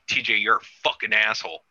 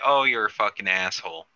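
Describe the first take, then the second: First: It sounds hostile and aggressive. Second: It sounds light and playful.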